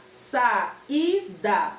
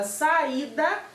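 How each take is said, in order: First: "saída" as three separate beats, sa, i, da; syllable by syllable. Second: Said in the usual way. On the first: Shown as a demonstration. Teacher separating the syllables for pupils, "saída" in three beats. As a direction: pause between each syllable of "saída". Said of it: "separar as sílabas da palavra saída". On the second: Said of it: "quando a palavra tá toda juntinha".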